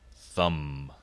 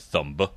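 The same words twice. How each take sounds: First: The final B is not pronounced. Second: The final B is pronounced. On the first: The speaker calls it right. "now that the B is silent" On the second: The speaker calls it wrong. "we used to say thumb"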